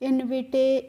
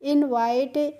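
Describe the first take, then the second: First: The ending sounds like 'itay' with short i. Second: The ending sounds like 'ite' with long i. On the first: The speaker calls it wrong. "इस तरीके से आपको नहीं पढ़ना है" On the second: The speaker calls it right. "इस तरीके से पढ़ेंगे"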